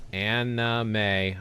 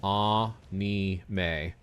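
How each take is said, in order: First: "Anime" syllable by syllable, AN-uh-may; American pronunciation. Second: "anime" syllable by syllable, AH-nee-may; Japanese pronunciation. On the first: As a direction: slowly show "Anime" starting like "Anna". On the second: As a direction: slowly show "anime" with an open ah. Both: Shown as a demonstration. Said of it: "It's a very subtle difference".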